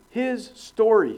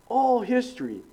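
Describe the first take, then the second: First: His story said slowly, two words, higher, stress on story; split into his story. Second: ALL hit high, the phrase All history said as one word; stress on ALL. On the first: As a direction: pull apart his story. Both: Shown as a demonstration.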